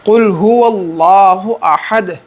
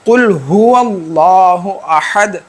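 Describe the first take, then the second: Both takes have the same delivery.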